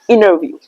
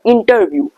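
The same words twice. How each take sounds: First: The T is silent, sounding like double N. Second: The T after the N is clearly pronounced. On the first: The speaker calls it right. "Try to pronounce interview" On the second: The speaker calls it wrong. "don't pronounce the interview"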